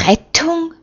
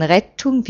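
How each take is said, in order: First: Rettung? sung out much higher as a mocking query; mocking fluted question. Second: Said in the usual way. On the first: A narrator's reading. Troublemaker mockingly pipes to his neighbour, fluted Rettung?. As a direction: flute Rettung? up high to needle him. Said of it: "wagt Hilkia ... zuzuflöten". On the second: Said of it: "zuzuflöten".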